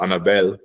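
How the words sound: The name is said with a Hispanic accent.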